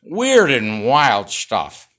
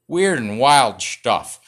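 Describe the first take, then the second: First: Slow, loud catchphrase again; stretched host catchphrase; Johnny Carson impression. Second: Slow, loud catchphrase; Johnny Carson impression. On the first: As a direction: lean into it like the late-night host. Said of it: "There it is". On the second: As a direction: drag out the catchphrase like a TV host. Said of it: "What's my Johnny Carson impression?".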